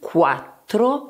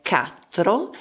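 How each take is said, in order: First: It begins with a 'kw' sound. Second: It begins with a plain 'k' sound. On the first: The speaker calls it right. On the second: The speaker calls it wrong.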